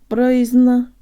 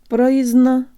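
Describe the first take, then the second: Both takes have the same delivery.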